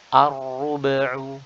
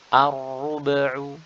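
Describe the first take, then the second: Both takes have the same delivery.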